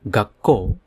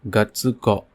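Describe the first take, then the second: First: The k is held long with no tsu sound. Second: A full tsu syllable is said before ko. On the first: The speaker calls it right. "it have to be pronounced as gakko" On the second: The speaker calls it wrong. "not gatsuko"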